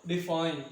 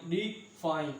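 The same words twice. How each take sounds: First: Said in the usual way. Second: "डिफाइन" in two separate parts, डि then फाइन; split into syllables. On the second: Shown as a demonstration. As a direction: break "डिफाइन" after डि, with a small gap before फाइन. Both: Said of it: "एक ये बन सकता है और एक ये बन सकता है".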